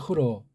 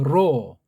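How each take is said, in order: First: The word starts with a breathy h sound. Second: The word starts directly with the r sound. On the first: This is how Westerners say it. The speaker calls it wrong. "서양 애들은 흐로 그러죠" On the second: This is how we can say it. The speaker calls it right. "우린 발음이 돼요"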